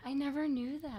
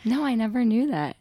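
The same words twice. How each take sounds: First: Soft, distant aside away from the mic. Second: Louder, higher, right on the mic. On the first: Guest reacting to host's confession, off-mic. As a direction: say it softly, away from the microphone. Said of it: "Wait, hold your mic". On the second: Guest repeating herself for the audience, loud into mic. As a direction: repeat it up loud so listeners can hear. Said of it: "Now the people can hear you". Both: Real, not acted.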